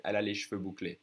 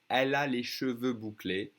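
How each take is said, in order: First: Cheveux squeezed to one syllable "shveu"; faster, dropped E. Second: Measured, cheveux in two full syllables "sheu-veu"; careful full pronunciation. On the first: The way she would say it to a friend, dropped E. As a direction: say cheveux without its first E. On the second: Teacher modelling curly hair for learners, careful full pronunciation. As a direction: sound the first E in cheveux. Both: Shown as a demonstration. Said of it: "If I say this faster".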